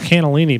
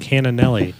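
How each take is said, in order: First: The word is said as 'cannellini'. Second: The word is said as 'cannonelli'. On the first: The speaker calls it right. "I think it's cannellini" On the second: The speaker calls it wrong. "but I've been saying cannonelli"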